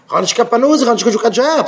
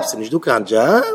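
First: High-pitched acted protest; mock complaint. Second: Quick, lower echo with a questioning rise; mock questioning. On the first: Speaker mimics a jobless man making excuses, high mock complaint. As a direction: plead jobless in a raised, put-on voice. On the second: Speaker queries the jobless man's excuse, mock questioning. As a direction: toss it back fast and low as a question.

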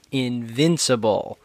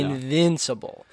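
First: Invincible said slowly; careful invincible. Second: Invincible said slowly and clearly; careful correction. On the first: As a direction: say invincible slowly and clearly, not invisible. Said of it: "correcting the word". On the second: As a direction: say Invincible slowly, every syllable. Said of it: "Not invisible". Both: Shown as a demonstration.

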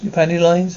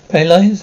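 First: Said in the usual way. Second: Louder, rising disbelief; shocked repeat. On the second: Acted. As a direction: echo her words in shock.

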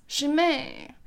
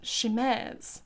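First: "Chimay" ending in an open ay, no z; trying a pronunciation. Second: "Chimez" with sh and a sounded final z; trying a pronunciation. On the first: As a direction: say "Chimay" French-style, as shee-MAY. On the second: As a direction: say "Chimez" as shee-MEZ. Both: Real, not acted. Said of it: "I don't know how to pronounce that".

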